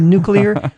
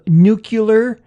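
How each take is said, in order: First: The sounds are in order, like 'nu-clear'. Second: The middle sounds are swapped, like 'nu-cu-lar'. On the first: The speaker calls it right. "instead of nuclear" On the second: The speaker calls it wrong. "the famous one of of nuclear"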